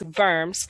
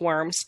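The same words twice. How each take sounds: First: The word begins with a V sound. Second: The word begins with a W sound. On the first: The speaker calls it right. "so the W is pronounced like a V" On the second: The speaker calls it wrong. "I know it looks like worms"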